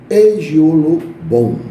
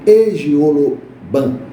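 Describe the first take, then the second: First: The final syllable has an 'o' vowel. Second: The final syllable has an 'a' vowel. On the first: "tem uma pronúncia que é Egiolobon" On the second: "nós temos o Odu Egioloban"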